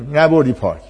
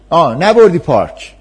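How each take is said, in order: First: Said in the usual way. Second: Put-on whiny child. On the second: Child complaining to parent.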